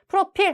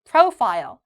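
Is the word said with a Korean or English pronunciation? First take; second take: Korean; English. First: It is said with Korean-style, evenly stressed syllables. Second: It is said English-style, stressing the first syllable. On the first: The speaker calls it wrong. "한국어랑 프로필 하면 안 되고" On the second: The speaker calls it right. "앞쪽에 profile"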